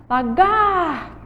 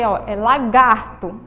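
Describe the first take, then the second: First: Lagarto, with the gar held long and sung out high; stretched syllable call. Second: Said in the usual way. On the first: Shown as a demonstration. Teacher calling the word out to the class, stretching gar. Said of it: "a sílaba que eu mais demorei chamando aí foi o gar". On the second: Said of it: "Vamos chamar a palavra lagarto".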